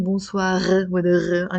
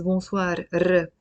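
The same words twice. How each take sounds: First: Bonsoir with a throaty French uvular r; Frenchy r. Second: Bonsoir ending in a tapped, rolled r; Lebanese tongue r. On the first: Teacher showing how not to say it, French r in bonsoir. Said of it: "unless you're trying to be Frenchy". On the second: Teacher showing the simpler way, rolled r in bonsoir. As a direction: end bonsoir with the tongue-tip r, not the French one. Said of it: "you can just say it as". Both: Shown as a demonstration.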